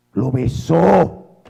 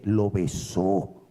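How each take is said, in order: First: "Lo besó" slow and louder, "besó" stretched; weighty slow repeat of "Lo besó"; emphatic repeat. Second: Said in the usual way. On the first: Shown as a demonstration. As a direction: land "Lo besó" hard and slowly.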